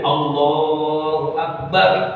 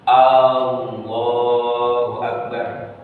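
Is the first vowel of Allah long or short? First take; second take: short; long. First: The first vowel of Allah is kept short. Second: The first vowel of Allah is drawn out long. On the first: It states that God is the greatest. The speaker calls it right. "nggak boleh dipanjang-panjangin" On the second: It asks whether God is the greatest. The speaker calls it wrong. "kalau memanjangkan lafaz hamzah menjadi istifham"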